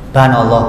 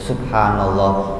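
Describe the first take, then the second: First: The first syllable is dropped, leaving banallah. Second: All syllables of the phrase are said fully. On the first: It is rushed just to finish the count. The speaker calls it wrong. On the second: It is said with reflection on God's greatness. The speaker calls it right.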